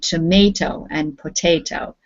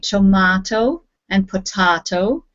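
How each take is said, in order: First: It is said with a North American pronunciation. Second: It is said with a British pronunciation.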